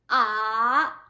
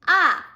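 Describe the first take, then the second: First: The pitch dips low then rises slightly. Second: The pitch falls sharply from high to low. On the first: "goes down and then rise just a little bit" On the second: "from the top down, falling tone"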